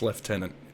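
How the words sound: The word is said the British way. "they say it as lieutenant for um, British members"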